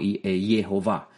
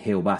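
First: The name begins with a Y sound. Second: The name begins with a J sound. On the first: The speaker calls it right. "suena más bien como una, como usted lo escucha, Yud, y sería como Jehová" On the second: The speaker calls it wrong. "en vez de Jehová"

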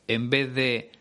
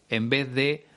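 The two takes are said the same way.

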